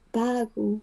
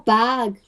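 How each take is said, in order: First: It is said with a Japanese accent, adding a vowel. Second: It is said with an American English accent. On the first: "They have a very strong Japanese accent" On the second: "I'm a native English speaker"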